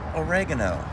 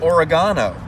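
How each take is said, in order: First: The word is said in an ordinary, everyday way. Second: The word is said in a fancier-sounding way.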